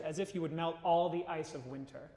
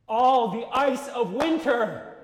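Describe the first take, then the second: First: Said in the usual way. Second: Slow, louder and higher, swelling; "All the ice of winter" stretched out slowly and loud; emphatic. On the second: Shown as a demonstration. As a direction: lose yourself in the words. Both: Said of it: "you're losing yourself".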